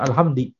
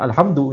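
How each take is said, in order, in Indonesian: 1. Kata ini diakhiri dengan vokal i setelah hamd. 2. Kata ini diakhiri dengan vokal u setelah hamd. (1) "walaupun dia bacanya alhamdi" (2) "yang dimaksud adalah alhamdu"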